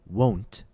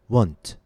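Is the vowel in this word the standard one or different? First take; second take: standard; different. First: The word has its standard vowel sound. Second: The word has a different vowel sound. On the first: The speaker calls it right. "Instead of saying won't" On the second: The speaker calls it wrong. "students often say won't or want"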